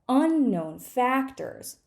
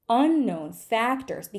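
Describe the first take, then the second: No difference in how they are said.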